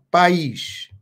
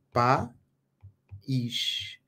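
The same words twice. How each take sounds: First: Said in the usual way. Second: "País" broken as pa... ís, long pause between; split into syllables. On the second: Shown as a demonstration. Teacher showing students the vowels in different syllables, "País" split in two. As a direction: say "País" slowly, syllable by syllable, lower. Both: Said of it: "em sílabas diferentes".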